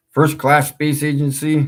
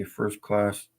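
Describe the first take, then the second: First: Loud, high mocking repeat. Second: Said in the usual way. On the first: Shown as a demonstration. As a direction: sneer at the name. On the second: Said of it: "okay, Mid-North Central Space Agency".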